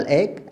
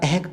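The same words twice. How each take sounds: First: "एक" with no H; correct pronunciation. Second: "ehk" with an audible H; wrong pronunciation. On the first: Teacher giving the simple version, correctly pronounced. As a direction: say "एक" simply, H silent. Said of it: "simple". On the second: Teacher showing how not to say it, mispronounced. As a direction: breathe the H out in "ehk". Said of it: "तो नहीं कह रहे". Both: Shown as a demonstration.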